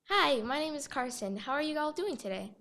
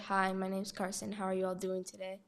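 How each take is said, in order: First: The voice varies in pitch and sounds lively. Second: The voice stays on one tone and sounds flat.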